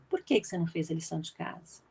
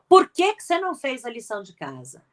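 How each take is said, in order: First: It sounds like a genuinely curious question. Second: It sounds like a scolding reprimand.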